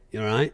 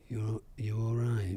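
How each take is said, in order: First: It is said lightly as a passing greeting. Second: It is said pointedly, as a probing question. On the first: It is just a greeting, like how's it going. "is basically like in Scotland, you know, how's it going?" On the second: It asks whether the person is really coping. "if someone wants to kind of labour the point a little bit"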